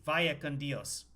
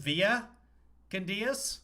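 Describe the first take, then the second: First: The first word has the 'ai' sound of vaya. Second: The first word lacks the 'ai' sound of vaya. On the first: The speaker calls it right. "It's via, V A Y A" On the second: The speaker calls it wrong. "Is is there some Spanish accent that says via con Dios?"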